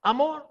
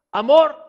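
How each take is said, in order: First: Said in the usual way. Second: Proclaimed. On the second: Real, not acted. Preacher proclaiming God's love to the congregation, shouting. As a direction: shout the word Amor high and loud.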